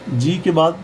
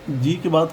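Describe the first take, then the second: No difference in how they are said.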